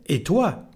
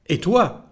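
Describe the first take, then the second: The two takes are said the same way.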